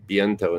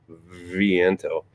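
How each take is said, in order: First: The word begins with a B sound. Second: The word begins with a V sound. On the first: This is how Spanish speakers actually say it. "they'll pronounce it like a B, so it'll be viento" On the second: This follows the spelling with a V. "instead of viento"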